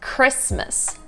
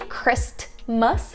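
First: The T sound is left out entirely. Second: The T sound is clearly pronounced. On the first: The speaker calls it right. "It's kind of being omitted" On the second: The speaker calls it wrong. "You don't say Christmas"

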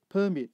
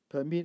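First: The stress falls on the first syllable. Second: The stress falls on the second syllable. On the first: It is a noun: an official document of permission. "as a noun" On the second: It is a verb: to allow. "as a verb"

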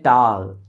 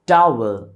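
First: The w sound in the middle is dropped. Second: The w sound in the middle is pronounced. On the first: The speaker calls it wrong. "तो लोग कहते हैं टाल" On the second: The speaker calls it right. "एक word है टावल"

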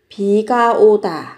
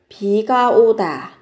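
The two takes are said the same way.

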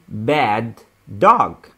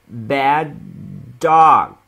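First: Both D sounds are pronounced separately. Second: The two D sounds merge into one. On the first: The speaker calls it wrong. "Don't say bad dog. It's wrong" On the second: The speaker calls it right. "we pronounce the 2D just only 1D"

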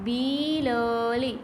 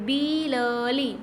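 The two takes are said the same way.

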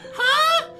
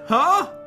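First: It is said in a put-on girl voice. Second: It is said in his normal voice.

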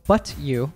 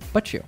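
First: The t and y are said separately. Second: The t and y merge into ch.

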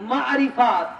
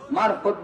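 First: A short i vowel separates R and F. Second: The R runs straight into the F. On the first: The speaker calls it right. "এই শব্দটা কি?" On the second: The speaker calls it wrong. "মারফত বলবেন না, খবরদার।"

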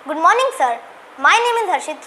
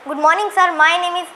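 First: It is said with lively expression. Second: It is said flatly, without expression.

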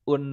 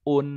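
No difference in how they are said.

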